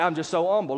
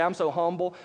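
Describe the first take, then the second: First: "humble" said as "umble", H left off; "humble" beginning on a bare vowel; dropped H. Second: Said in the usual way. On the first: Retold or imitated. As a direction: leave the H off "humble", mimicking the self-proclaimed humble. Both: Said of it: "they don't even pronounce the H".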